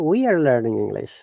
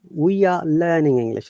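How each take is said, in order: First: The R sounds are pronounced clearly. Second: The R sounds are dropped entirely. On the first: "American I P A" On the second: "British I P A, No R sound at all"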